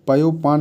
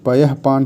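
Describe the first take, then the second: First: The first part ends in an 'o' sound. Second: The first part ends in a breathy 'ah'. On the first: The speaker calls it wrong. "नहीं" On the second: The speaker calls it right. "पयःपान होता है"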